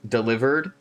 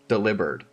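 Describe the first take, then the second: First: The name sounds like the word 'delivered'. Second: The name sounds like the word 'delivered'.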